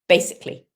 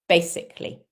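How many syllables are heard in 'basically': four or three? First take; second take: three; three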